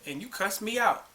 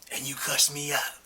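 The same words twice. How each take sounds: First: It is said in a plain voice. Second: It is said in a put-on voice.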